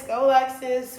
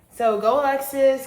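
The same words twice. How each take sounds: First: Loud self-cheer, a little less high; second cheer, still loud; cheering herself on. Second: Loud, bright cheer for herself; loud self-cheer, higher pitch. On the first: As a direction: keep hyping yourself up. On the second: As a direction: hype yourself up like a fan. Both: Real, not acted.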